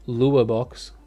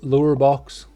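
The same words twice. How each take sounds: First: It is said in an Australian accent. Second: It is said in an American accent. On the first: "That's how we say it in Australia" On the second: "I'm saying it with a bit of an American accent"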